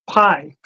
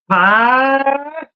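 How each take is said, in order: First: The vowel rises and then glides back down. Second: The vowel stays up without gliding down. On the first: "You go up and you come down like gravity" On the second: "But in the South, for whatever reason, gravity doesn't exist"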